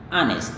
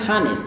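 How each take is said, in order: First: The word starts with a vowel, H silent. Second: The word starts with an audible H sound. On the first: The speaker calls it right. "H ini biasanya tidak dilafalkan" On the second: The speaker calls it wrong. "Jangan bilang honest"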